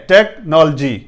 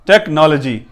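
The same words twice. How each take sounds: The two takes are said the same way.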